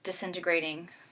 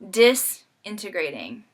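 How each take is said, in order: First: The word has its normal stress pattern. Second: The word is stressed on unusual syllables. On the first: Lives are falling apart. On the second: Lives are becoming separated from wholeness.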